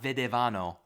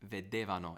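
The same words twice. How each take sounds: First: The stress falls on the a. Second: The stress falls on the e. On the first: The speaker calls it wrong. "It's not that accent on that A over there" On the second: The speaker calls it right. "It's on the E"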